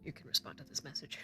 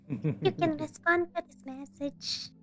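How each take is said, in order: First: It is said in a normal voice. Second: It is said in a shrill voice.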